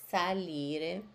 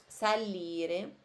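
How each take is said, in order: Both takes have the same delivery.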